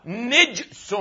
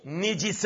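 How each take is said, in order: First: "نجس" as nijsun, jim with sukun; silent jim. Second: "نجس" as nijisun, with a kasra on the jim; wrong vowelled jim. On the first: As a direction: close the first syllable of "نجس" on the j: nij-sun. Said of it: "وكسرها مع سكون الجيم". («نجس» بكسر النون وسكون الجيم) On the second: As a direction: give "نجس" a short i after the jim: ni-ji-sun. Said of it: "أن تجعل الجيم ساكنة". («نجس» بكسر النون وكسر الجيم) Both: Shown as a demonstration.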